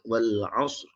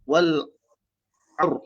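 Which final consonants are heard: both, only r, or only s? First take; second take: both; only r. First: The s is sounded, then a trilled r. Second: It ends on the r sound, with no s. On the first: The speaker calls it right. "ra tu kita getarkan dia" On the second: The speaker calls it wrong. "tak ada sad"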